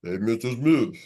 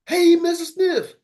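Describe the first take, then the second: First: A deep, low-pitched "Hey, Mister Smith"; mock cold call in a low voice; low voice try. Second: A high, slow, stretched-out "Hey, Mister Smith"; mock cold call in a squeaky high voice; high voice try. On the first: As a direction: drop the voice way down for the greeting. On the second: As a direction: go way up high and drag it out. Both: Shown as a demonstration. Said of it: "you start changing up".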